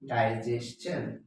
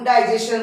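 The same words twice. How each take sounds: First: The ending is said with an s-ch sound. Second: The ending is said with a plain sh sound. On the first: The speaker calls it right. "म्हणून याचं pronunciation कसं होईल" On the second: The speaker calls it wrong. "आपण डायजेशन म्हणतो"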